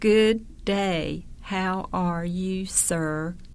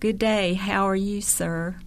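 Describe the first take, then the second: First: It is said slowly. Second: It is said at normal speed.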